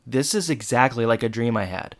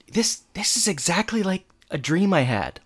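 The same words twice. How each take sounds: First: Said in the usual way. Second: Higher-pitched mock amazement; amazed realization. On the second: [name] recognizing his dream, amazed. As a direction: lift the pitch as it dawns on you. [name]'s first amazed claim, then repeated.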